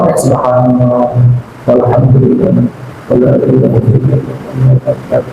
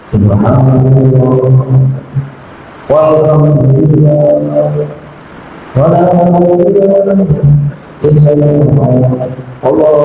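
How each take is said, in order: First: It is recited at a normal, moderate speed. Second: It is recited very slowly and drawn out.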